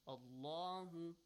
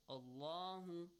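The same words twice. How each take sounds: First: The L sound is pronounced heavy and full. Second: The L sound is pronounced heavy and full.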